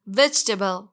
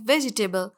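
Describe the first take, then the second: First: वेजिटेबल shortened to VEJ-tuh-bul; correct pronunciation. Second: वेजिटेबल in four syllables, ve-ji-TAY-bul; wrong pronunciation. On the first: Teacher corrects the word, clearly pronounced. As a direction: say वेजिटेबल without the middle i. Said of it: "इसकी correct pronunciation है". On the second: Teacher shows learners the mistake, mispronounced. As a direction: say वेजिटेबल with i and "table" sounded. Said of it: "ये बिल्कुल गलत है". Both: Shown as a demonstration.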